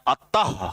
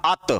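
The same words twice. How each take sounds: First: अतः ending in a short breathy ah; visarga ending. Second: Said in the usual way. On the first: Shown as a demonstration. Teacher showing how the visarga changes अत, breathy end. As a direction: finish अतः with a puff of breath. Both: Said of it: "ये देखिए विसर्ग लगाया".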